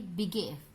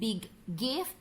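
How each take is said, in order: First: The g sound is said only once. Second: The g sound is said twice. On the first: The speaker calls it right. "dirangkap jadi satu" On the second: The speaker calls it wrong.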